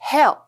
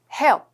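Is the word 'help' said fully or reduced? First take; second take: reduced; reduced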